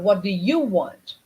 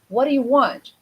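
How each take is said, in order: First: The word 'you' carries strong contrastive stress. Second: The word 'you' carries no special stress. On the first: The listener is contrasted with someone else. "I'm changing the pattern of the, the, the, the stress" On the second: A plain question about what the listener wants. "You're going to say"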